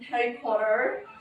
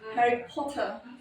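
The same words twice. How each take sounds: First: It is said in an American accent. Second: It is said in a British accent.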